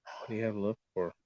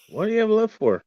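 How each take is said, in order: First: A quiet, brooding question; hushed question. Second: Much higher, forceful challenge. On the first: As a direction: ask it under your breath. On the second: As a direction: fire the question at them. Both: Acted. Same question hushed then yelled.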